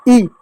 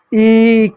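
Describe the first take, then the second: First: ई said as a brief, light vowel; light short ई. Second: ई stretched as a long vowel. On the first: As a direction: keep ई short, do not stretch it. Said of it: "हल्की सी". (हल्की सी छोटी ई) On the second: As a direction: hold ई for its full long length. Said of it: "बड़ी का उच्चारण जो होता है". (बड़ी ई, खींचकर) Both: Shown as a demonstration.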